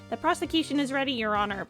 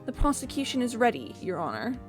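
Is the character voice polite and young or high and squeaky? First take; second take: squeaky; polite. First: It is a very high, squeaky voice. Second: It is a polite, young man's voice. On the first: "I could give him a really high squeaky voice" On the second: "the polite young man voice just isn't working for him"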